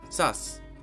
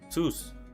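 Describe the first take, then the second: First: The vowel sounds like English 'uh'. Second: The vowel sounds like 'oo' in 'moon'. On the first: The speaker calls it wrong. "it's not pronounced sus" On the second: The speaker calls it right. "It's pronounced sus"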